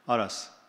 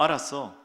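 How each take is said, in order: First: It sounds cold and grudging. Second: It sounds warm and willing. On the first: Do not ask me this again. "이건 다음부터 이런 말 하지 마" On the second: The speaker is glad to help. "친절한 남편"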